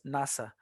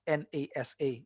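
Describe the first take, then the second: First: Nasa said as one word; read as a word. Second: N A S A said letter by letter; N A S A as en-ay-ess-ay; spelt out as letters. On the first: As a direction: say "nasa" as a two-syllable word, not spelt out. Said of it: "you pronounce it as a word". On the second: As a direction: say "N A S A" as four separate letter names. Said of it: "You don't pronounce". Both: Shown as a demonstration.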